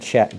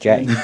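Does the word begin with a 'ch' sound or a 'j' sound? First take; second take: ch; j. First: The word begins with a voiceless 'ch' sound. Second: The word begins with a voiced 'j' sound. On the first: This is the usual pronunciation. "Not Czech" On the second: This imitates how someone else pronounces it.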